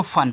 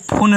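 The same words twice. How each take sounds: First: फन with a short a, the right way; correct reading. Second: फुन with a short u sound, the wrong way; wrong reading. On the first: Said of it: "इसको फन पढ़ते हैं". (सही उच्चारण फन) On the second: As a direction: say फुन as the mistake to avoid. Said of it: "इसको फुन नहीं पढ़ना है". (गलत उच्चारण फुन) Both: Shown as a demonstration.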